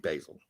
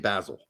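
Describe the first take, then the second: First: It is said with an American accent. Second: It is said with a British accent.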